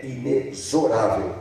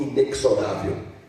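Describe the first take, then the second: First: Inexorável with the x said as z, i-ne-zo-RA-vel, a little slow; correct pronunciation. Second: Inexorável with the x said as ks, in-ek-so-RA-vel; wrong pronunciation. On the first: Delegate teaching students the right way, inexorável with z. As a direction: say inexorável properly, x like z. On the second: Delegate showing students the common mistake, inexorável with ks. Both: Shown as a demonstration. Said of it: "a pronúncia certa é inexorável".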